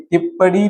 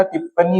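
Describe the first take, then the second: First: टिप्पणी as "tippadi", with a flapped d. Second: Said in the usual way. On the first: Shown as a demonstration. Teacher showing a common error, "tippadi" for टिप्पणी. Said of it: "नहीं होता". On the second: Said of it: "होता है".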